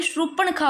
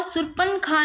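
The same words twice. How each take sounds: First: "शूर्पणखा" with retroflex n; corrected pronunciation. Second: "शूर्पणखा" with plain dental n; rejected pronunciation. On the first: Teacher giving the correction, "शूर्पणखा" with retroflex n. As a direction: curl the n in "शूर्पणखा". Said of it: "अणय होता है". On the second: Teacher showing the error, "शूर्पणखा" with plain n. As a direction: say surpan-kha for "शूर्पणखा". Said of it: "शूर्पणखा नहीं". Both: Shown as a demonstration.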